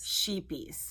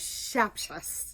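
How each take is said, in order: First: It sounds like sheepies, with a long ee. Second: It sounds like shepshus, with a short e. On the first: This is how most people say it. The speaker calls it wrong. "people in America constantly call" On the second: This is closer to the original Dutch. The speaker calls it right. "it's something along the lines of"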